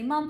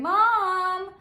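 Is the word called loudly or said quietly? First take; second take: quietly; loudly. First: It is said at a quiet, normal level. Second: It is called out loudly.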